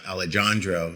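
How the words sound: The name is said with English pronunciation. The name is said as outsiders usually say it. The speaker calls it wrong.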